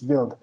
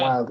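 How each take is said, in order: First: The word begins with a V sound. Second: The word begins with a W sound. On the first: The speaker calls it right. "say the W as a V sound" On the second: The speaker calls it wrong. "it's not wild"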